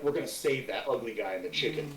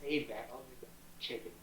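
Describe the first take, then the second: First: Low, soft undertone, just audible; lowered voice, quiet but clear; whispered aside repeated audibly. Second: Very soft, secretive aside; hushed, low, barely audible instruction; whisper. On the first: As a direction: confide the plan under your breath. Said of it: "I didn't hear what you whispered". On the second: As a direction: whisper it across to an ally. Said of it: "I whisper over towards Juniper". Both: Acted.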